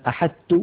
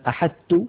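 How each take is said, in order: First: The ṭ is fully merged into the t. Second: The ṭ is fully merged into the t.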